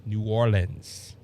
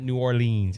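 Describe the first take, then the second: First: "New Orleans" with a short, unstressed "-lins" ending; local New Orleans. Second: "New Orleans" ending in a long "LEENS"; "New or-LEENS", the version being corrected; wrong New Orleans. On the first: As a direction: say "Orleans" as "OR-linz", low and slow. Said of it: "how to say New Orleans". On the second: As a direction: say "Orleans" as "or-LEENZ", the outsiders' way. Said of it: "when they talk to me from out of state". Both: Shown as a demonstration.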